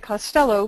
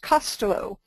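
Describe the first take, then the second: First: The name is said the American way. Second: The name is said the Irish way. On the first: "in America we say Costello" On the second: "in Ireland I was informed that the correct pronunciation is Costello"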